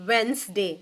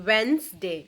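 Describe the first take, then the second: No difference in how they are said.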